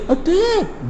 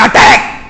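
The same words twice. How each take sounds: First: Slow, softly spoken order. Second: Forceful, rousing battle command; with fervour. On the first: Commander giving troops the order too softly, quiet. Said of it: "تو دھیرے". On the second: Commander rousing his troops to attack, fervent. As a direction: call it out with fervour. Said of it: "جوش میں بولے گا". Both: Shown as a demonstration.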